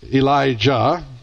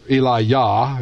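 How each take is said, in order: First: The name is pronounced the English way. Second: The name is pronounced the Hebrew way.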